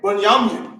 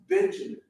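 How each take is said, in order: First: The first syllable sounds like 'bun'. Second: The first syllable sounds like 'ben'. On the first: This is the original form of the name. The speaker calls it right. "Like somebody to club you upside the head" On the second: This is the English form of the name. The speaker calls it wrong. "Benjamin sounds like Uncle Ben from Spider-Man"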